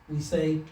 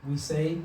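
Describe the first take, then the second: Both takes have the same delivery.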